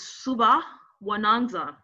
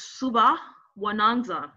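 First: The x is said like a soft h. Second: The same.

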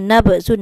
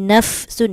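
First: The f is stopped and bounces like a b. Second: The f is said with a flow of air. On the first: The speaker calls it wrong. "jangan nabsun, nanti takut jadi kol-kolah" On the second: The speaker calls it right. "angin, angin"

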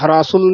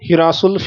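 First: The first syllable is said with an 'a' vowel. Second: The first syllable is said with an 'i' vowel. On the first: The speaker calls it wrong. "ਹਰਾਸੁਲ ਨਹੀਂ ਬੋਲਣਾ" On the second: The speaker calls it right. "ਇਹ ਹਿਰਾਸੁਲ ਬਿਲਕੁਲ ਠੀਕ ਬੋਲਿਆ ਗਿਆ"

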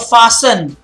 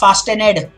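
First: The T sound is not pronounced. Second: The T sound is clearly pronounced. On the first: The speaker calls it right. "So remember that the T is silent there" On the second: The speaker calls it wrong. "It's not fastened"

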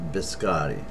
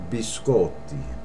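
First: It is pronounced the American way. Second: It is pronounced the Italian way. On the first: The speaker calls it wrong. "Not biscotti" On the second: The speaker calls it right.

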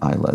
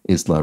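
First: The S sound is dropped entirely. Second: The S sound is clearly pronounced. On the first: The speaker calls it wrong. "rather than Isla" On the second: The speaker calls it right. "the S is pronounced Isla"

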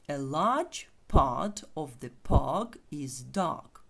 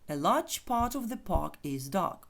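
First: The sentence is spoken slowly. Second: The sentence is spoken quickly. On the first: "ще раз, повільно" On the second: "Швидше"

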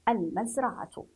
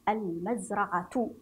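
No difference in how they are said.

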